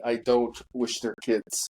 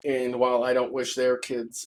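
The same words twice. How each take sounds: First: "don't" weighted and firm, falling; stress on don't. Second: Said in the usual way. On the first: Real, not acted. Insisting he wishes the kids no harm, weight on "don't". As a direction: repeat it leaning hard on "don't". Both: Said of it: "and I repeat".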